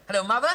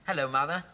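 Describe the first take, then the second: First: Loud, high hello down a bad line; calling out. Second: Said in the usual way. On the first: Son on the phone shouting to his mother, loud call.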